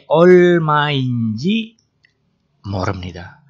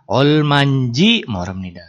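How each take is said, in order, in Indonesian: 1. Kata pertama diucapkan dalam bentuk lengkap. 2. Kata pertama diucapkan disingkat dan digabung.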